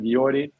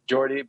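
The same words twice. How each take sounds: First: The name is pronounced the Dutch way. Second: The name is pronounced the English way. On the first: This is how the name's own people say it. "we just pronounced it Jordi" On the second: This is how people in England say it. "if you get to England, they say like Jordi"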